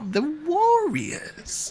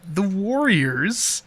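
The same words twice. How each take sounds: First: The title is said loudly with extra energy. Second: The title is said plainly, without extra energy. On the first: The speaker calls it right. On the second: The speaker calls it wrong.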